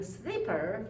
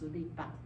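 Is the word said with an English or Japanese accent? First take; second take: English; Japanese. First: It is said with an English pronunciation. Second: It is said with a Japanese pronunciation. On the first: "your sleeper" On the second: "becomes sulipa"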